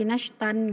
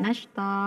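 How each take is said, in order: First: The word ends with an n sound. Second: The word ends with a long vowel. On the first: The speaker calls it wrong. "membaca mat iwat ini menjadi wanasyitati nashtan" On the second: The speaker calls it right.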